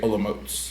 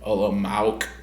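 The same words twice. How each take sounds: First: The name is said with its native pronunciation. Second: The name is read the way English spelling suggests. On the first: "you say Olomouc" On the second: "It's like spelled like Olomouc"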